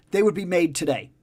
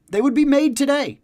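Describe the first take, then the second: First: Said in the usual way. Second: Higher and louder, hammering the point home; emphatic repeat. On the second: Real, not acted. To the listener, insisting the comics would exist now if good, emphatic. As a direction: say it again like the final word on it.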